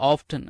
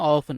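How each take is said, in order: First: The t sound in the middle is pronounced. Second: The t sound in the middle is silent. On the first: "ஆஃப்டன் அப்படின்னு கூட உச்சரிச்சுக்கோங்க" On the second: "இல்லை ஆஃபன் அப்படின்னு கூட உச்சரிச்சுக்கோங்க"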